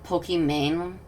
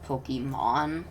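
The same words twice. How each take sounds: First: Pokimane ending in a long A, "main"; pronounced as spelt. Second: Pokemon ending in an open "mahn"; Pokemon, last syllable "mon" rather than "mane"; intended pronunciation. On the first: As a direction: say Pokimane to rhyme with "rain". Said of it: "it's spelt like Pokimane". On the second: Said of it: "supposed to be pronounced Pokemon". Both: Shown as a demonstration.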